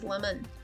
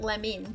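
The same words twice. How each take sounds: First: The second vowel is a reduced schwa. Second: The second vowel is a clear 'ih' sound. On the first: The speaker calls it right. "it's lemon" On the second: The speaker calls it wrong. "it's not lemon"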